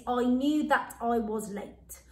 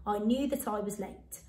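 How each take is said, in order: First: Slow dictation. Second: Said in the usual way. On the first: Shown as a demonstration. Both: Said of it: "our sentence today".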